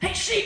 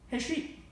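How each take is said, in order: First: It is yelled in an angry tone. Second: It is said in a calm tone.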